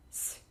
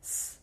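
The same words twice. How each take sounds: First: "s" as a palatal, softened hiss; soft s. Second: "S" as a plain hard hiss. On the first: Teacher comparing two sounds for learners, soft s. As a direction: soften "s" toward "sy". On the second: Teacher comparing two sounds for learners, hard s. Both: Shown as a demonstration. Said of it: "the difference between s and s".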